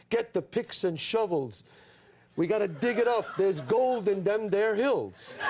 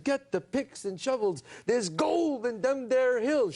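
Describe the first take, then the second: First: Slow, drawn-out mock cowboy line; hammed-up prospector line. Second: Slow, drawn-out western line, a bit higher; audition reading. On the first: Actor retelling his one movie line, slow hammy prospector. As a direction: recite it like a bad western extra, slowly. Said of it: "My line was this". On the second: Retold or imitated. Young actor auditioning for a casting director, slow and hammy. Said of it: "So I said".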